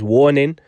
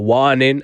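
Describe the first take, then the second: First: The word is said with its usual pronunciation. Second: The word is said with the singer's pronunciation.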